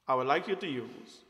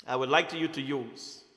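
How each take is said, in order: Both takes have the same delivery.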